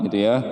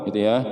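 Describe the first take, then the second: Both takes have the same delivery.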